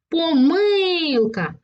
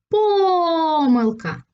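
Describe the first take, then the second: First: The stress is on the second syllable. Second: The stress is on the first syllable. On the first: "І тоді наголос буде падати на другий склад" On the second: "На перший склад"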